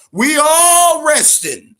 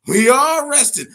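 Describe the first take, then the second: First: Louder and high, drawn out slowly; emphatic. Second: Said in the usual way. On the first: Real, not acted. Telling fighters nobody gets a rest, loud and slow. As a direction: lean hard on every word.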